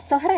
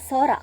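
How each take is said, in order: First: An h sound is heard in the middle. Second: No h sound is heard in the middle. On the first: The speaker calls it wrong. "സൊഹറ അല്ല" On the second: The speaker calls it right. "എച്ച് silent ആണ്"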